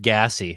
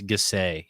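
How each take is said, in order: First: It is pronounced the plain English way. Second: It is pronounced the French way. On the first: The speaker calls it wrong. "you said gassy. It makes it sound unappealing" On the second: The speaker calls it right. "You got to French it up"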